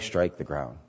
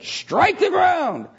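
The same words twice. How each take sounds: First: It is said weakly, without force. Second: It is said forcefully, demanding full effort.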